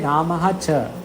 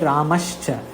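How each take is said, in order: First: The words are separated with an aha ending. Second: The words merge with an sh sound between them. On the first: This is the form split into separate words. "You have to say Ramaha cha" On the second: This is the joined form found in sentences. "You will get Ramashcha"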